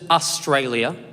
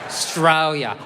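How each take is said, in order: First: The word starts with its full first vowel. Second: The first vowel is dropped from the word. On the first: The speaker calls it wrong. "We don't say the A" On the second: The speaker calls it right. "Hold on to the A"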